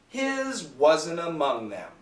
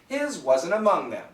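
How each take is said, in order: First: It is spoken slowly and carefully. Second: It is spoken at a normal conversational speed. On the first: "One time slowly with the cancellation" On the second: "The second time normal speed"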